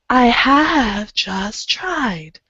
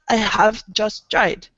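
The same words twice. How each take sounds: First: The vowels are held full and long. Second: The vowels are clipped short and cut off. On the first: The speaker calls it right. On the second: The speaker calls it wrong.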